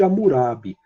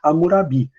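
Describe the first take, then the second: First: The stress falls before the last syllable. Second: The stress falls on the last syllable. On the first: The speaker calls it wrong. "Eu sempre falei código de Hammurabi" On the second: The speaker calls it right. "o correto seria Hammurabi, porque a oxítona terminada em i não é acentuada"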